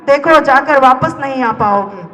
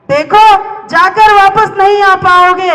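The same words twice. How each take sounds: First: Said in the usual way. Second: High, slow, ringing declamation; declaimed warning. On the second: Acted. Warning there is no coming back, slow high declamation. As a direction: draw it out high and forceful.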